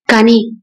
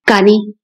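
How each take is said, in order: First: Lingering on కాని before going on; hesitant repeat. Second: Said in the usual way. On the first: Acted.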